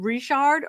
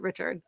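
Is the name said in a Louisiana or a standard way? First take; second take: Louisiana; standard. First: The name is said the Louisiana way. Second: The name is said the standard way.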